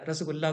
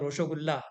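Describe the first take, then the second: First: It begins with 'ras', an unrounded vowel and 's'. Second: It begins with 'rosho', rounded vowels and 'sh'.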